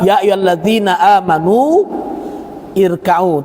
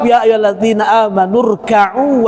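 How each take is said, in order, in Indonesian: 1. Berhenti setelah amanu dan mengucapkan 'i' sebelum rka'u. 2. Menyambung amanu ke rka'u sambil menghilangkan 'i'. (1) "Kalau kita baca dari irka'u harus dikasih ir" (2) "kalau dibaca secara lengkap"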